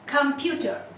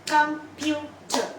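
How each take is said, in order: First: Said in the usual way. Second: "Computer" slowly in three beats, com, pu, ter; split into syllables. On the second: Shown as a demonstration. Teacher counting syllables for learners, "Computer" broken in three. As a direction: pause between each syllable of "Computer". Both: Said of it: "How many syllables are there".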